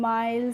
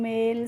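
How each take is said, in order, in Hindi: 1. स्वर 'eye' जैसा सुनाई देता है। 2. स्वर 'ay' जैसा सुनाई देता है। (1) "इस तरीके से नहीं प्रोनाउंस करना है" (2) "कैसे करना है बच्चों"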